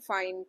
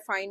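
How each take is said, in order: First: It is said in a sarcastic tone. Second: It is said in an angry tone.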